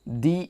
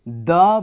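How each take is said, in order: First: The word is said with a long 'ee' vowel. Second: The word is said with a short 'uh' vowel. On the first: "vowel letter से पहले हो तो दी बोलते हैं" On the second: "consonant letter से पहले हो तो द बोलते हैं"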